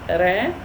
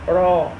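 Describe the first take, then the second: First: The r is light with a front vowel. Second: The r is heavy with an open vowel. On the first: The speaker calls it wrong. "No, this is not correct" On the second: The speaker calls it right. "It's called heavy ra"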